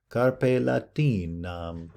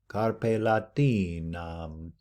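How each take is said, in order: First: The long vowels are kept short and unexaggerated. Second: The long vowels are drawn out, held twice as long. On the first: The speaker calls it wrong. "I will not tend to exaggerate my Latin pronunciation" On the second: The speaker calls it right. "that would actually be a little bit better"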